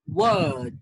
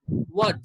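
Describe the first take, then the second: First: The vowel is stretched out long. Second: The vowel is short and clipped. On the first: The speaker calls it right. "It's a bit long" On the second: The speaker calls it wrong. "many people pronounce this word ... No, it's wrong"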